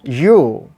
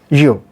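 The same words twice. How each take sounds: First: The vowel is long and full. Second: The vowel is short and reduced. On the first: "And the strong form, ... long sound" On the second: "Weak form"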